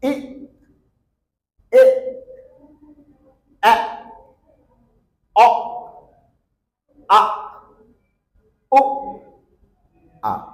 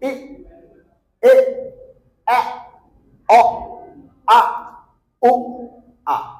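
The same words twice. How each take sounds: First: The vowels are said slowly, one by one. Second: The vowels are said quickly in a row.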